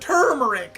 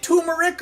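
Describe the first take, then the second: First: The first syllable sounds like 'tur'. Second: The first syllable sounds like 'too'. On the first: "or is it tur" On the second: "Is it two, like the number"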